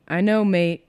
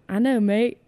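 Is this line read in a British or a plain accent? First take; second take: plain; British. First: It is read in the reader's ordinary accent. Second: It is read in a put-on British accent.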